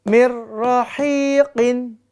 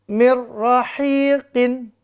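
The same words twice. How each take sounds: Both takes have the same delivery.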